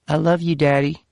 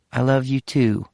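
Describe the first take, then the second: First: Put-on small child, much higher and sweet; high young child's I love you; little girl voice. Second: Said in the usual way. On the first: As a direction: daughter telling dad she loves him. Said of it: "Her little Virginia accent".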